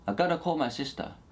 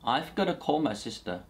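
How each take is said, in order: First: The 've' sound after 'I' is dropped. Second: The 've' sound after 'I' is pronounced.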